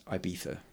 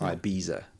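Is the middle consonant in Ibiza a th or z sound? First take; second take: th; z. First: The middle consonant is a lisped th sound. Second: The middle consonant is a buzzing z sound. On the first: The speaker calls it right. "it's Ibiza" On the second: The speaker calls it wrong. "not Ibiza"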